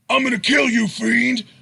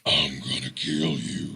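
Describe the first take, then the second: First: It is said in a Hercule-like voice. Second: It is said in a possessed demon voice.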